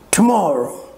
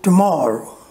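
First: The stress falls on a syllable other than the second. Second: The stress falls on the second syllable. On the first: The speaker calls it wrong. "Tomorrow is also not correct" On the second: The speaker calls it right. "So the second syllable will be stressed"

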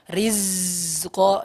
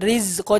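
First: The syllables are broken apart with a break between. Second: The syllables are joined, the air held between them. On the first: The speaker calls it wrong. "jangan sampai rizko" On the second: The speaker calls it right. "cukup rizko"

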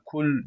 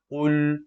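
First: The first consonant is a forward k sound. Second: The first consonant is a deep back q sound. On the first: The speaker calls it wrong. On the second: The speaker calls it right.

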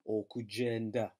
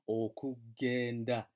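First: The g is soft, like a j sound. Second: The g is hard, like in go. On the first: The speaker calls it wrong. "don't be tempted to pronounce that as okugenda, because you're an English speaker and you're familiar with the word agenda" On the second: The speaker calls it right. "this G is a hard G"

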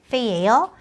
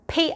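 First: The first consonant is a non-Korean sound. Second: The first consonant is a Korean-like sound. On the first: The speaker calls it right. "한국어 발음 중에 이런 발음 없어요" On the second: The speaker calls it wrong. "이거 페이 아니에요"

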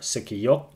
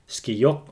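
First: A short vowel separates the first two consonants. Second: The first two consonants are said together. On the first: "without clusters, but with the letter ø" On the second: "words with clusters"

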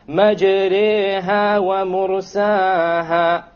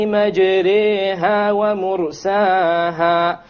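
Both takes have the same delivery.

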